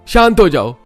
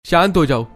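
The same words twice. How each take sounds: First: High, loud, forceful order; husband's full-voiced exasperated shout; shouted command. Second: High-pitched urgent order; raised-voice husband calming his wife; sharp command. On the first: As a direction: shout it to stop the argument. Husband repeats his order more forcefully. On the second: Acted. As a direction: cut in firmly, voice raised. Husband grabs her hand, tells her stop.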